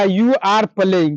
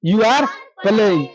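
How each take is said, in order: First: Very slow, each word set apart; slow teacher's model sentence; slow model answer. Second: Drawn-out repeat, each word apart; slow, patient second take; slow repeat of the answer. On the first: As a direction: dictate the English answer to the class. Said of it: "तो आप क्या कहिएगा?". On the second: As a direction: repeat it slowly so the class catches it. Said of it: "क्या?". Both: Shown as a demonstration.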